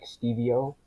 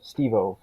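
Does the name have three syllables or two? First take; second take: three; two. First: The name is said with three syllables. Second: The name is said with two syllables. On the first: The speaker calls it wrong. "I didn't want people mispronouncing it like Stevie-O" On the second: The speaker calls it right. "So it's like um, Steve-O from Jackass"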